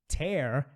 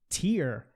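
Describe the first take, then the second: First: The vowel sounds like the word air. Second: The vowel sounds like the word ear. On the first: It means to rip something. "Tear é a palavra rasgar, o verbo rasgar" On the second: It means a drop from the eye. "Tear é a palavra lágrima, o substantivo lágrima"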